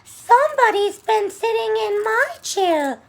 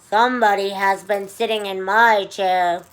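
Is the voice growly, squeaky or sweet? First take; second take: squeaky; growly. First: It is said in Baby Bear's high squeak. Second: It is said in Papa Bear's low, growly voice.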